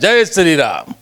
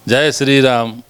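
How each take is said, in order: First: It is said in a taunting, mocking tone. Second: It is said in a soft, humble tone. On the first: It is meant to provoke others. "चिढ़ाते हैं" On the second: It expresses reverence. "नम्रता रहती है आवाज़ में"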